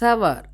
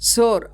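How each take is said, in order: First: The vowel is an 'ow' sound. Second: The vowel is a plain 'or' sound. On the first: The speaker calls it right. "சவர் அப்படி தான் pronounce பண்ணணும்" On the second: The speaker calls it wrong. "சோர் அப்படி சொல்லக்கூடாது"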